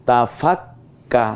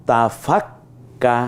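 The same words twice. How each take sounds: Both takes have the same delivery.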